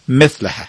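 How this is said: It is said with a Turkmen pronunciation. "ولی ترکی هم میگه مثله"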